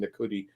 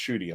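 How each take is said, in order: First: The name starts with a separate 'na' syllable. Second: The name starts with a 'shoo' sound. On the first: This is how other people were saying it. The speaker calls it wrong. "people were saying Nakuti" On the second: This is the proper pronunciation of the name. The speaker calls it right. "it's pronounced Shooty"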